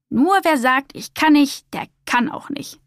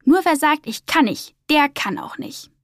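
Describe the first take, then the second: First: Higher opening, settling into a firm close. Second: Higher, lilting happy declaration; overjoyed. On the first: Beaufort encouraging doubtful Humboldt, firm. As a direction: state it with understated conviction. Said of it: "sagte Beaufort bestimmt". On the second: Humboldt fearless on the whale's back, overjoyed. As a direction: call it out with understated joy. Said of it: "Da rief er überglücklich". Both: A narrator's reading.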